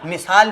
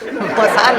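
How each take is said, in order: First: The first syllable has an 'i' vowel. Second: The first syllable has an 'a' vowel. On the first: The speaker calls it right. "मिसाल बोलिए" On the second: The speaker calls it wrong. "मसाल नहीं भाभी"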